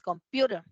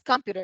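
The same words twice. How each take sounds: First: The stress is on the second syllable. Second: The stress is on the first syllable. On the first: The speaker calls it right. "el acento está en la segunda sílaba" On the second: The speaker calls it wrong. "No es computer"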